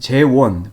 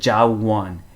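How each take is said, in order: First: The first syllable is said as jae. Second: The first syllable is said as ja. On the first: The speaker calls it right. "제 이름은 재원" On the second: The speaker calls it wrong. "어떤 경우에는 재원을 무슨 어떻게 발음하냐면 뭐 자원"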